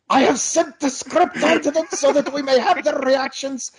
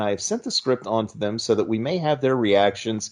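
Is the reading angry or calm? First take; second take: angry; calm. First: It is read in an angry way. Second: It is read in a calm, plain way.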